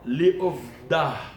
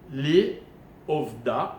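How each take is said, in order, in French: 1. Le mot se termine par un son h final audible. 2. Le mot se termine par une voyelle simple, sans h. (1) "écoutez bien" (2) "j'ai dit, mais je me reprends"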